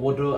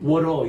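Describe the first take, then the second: First: The middle consonant sounds like a D. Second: The middle consonant sounds like an R. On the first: "water라고 D 발음합니다" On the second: "미국 사람 딱 가면 R로 바뀌어요"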